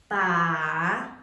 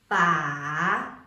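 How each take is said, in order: First: The pitch dips down and then rises. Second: The pitch dips down and then rises.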